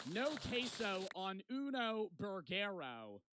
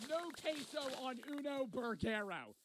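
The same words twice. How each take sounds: First: No queso on uno burgero read out slowly, word by word; slow fake Spanish. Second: Mocking repeat. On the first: Reading friend's fake Spanish note. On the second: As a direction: ridicule the bad Spanish, pitched up. Repeating friend's fake Spanish mockingly.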